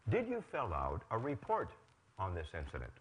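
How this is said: The voice falls at the end.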